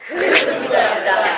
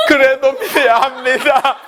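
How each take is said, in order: First: Lifted high on 그래도, pulled from above; 그래도 raised and stretched upward, then 믿어야 합니다 falls firmly; pulled-up confident declaration. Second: Slow, high, strained 그래도 믿어야 합니다 in a put-on voice; 그래도 dragged slowly and high, a caricature; wrong way, mock overdone. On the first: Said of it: "이런 뉘앙스로 하시란 말이에요". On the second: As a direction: ham it up with a mocking laugh, the way not to do it. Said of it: "데보라 집사님처럼 하면 안 돼". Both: Shown as a demonstration.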